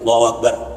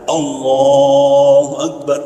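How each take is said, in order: First: The takbir is said short, without lengthening. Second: The takbir has a moderate, in-between length.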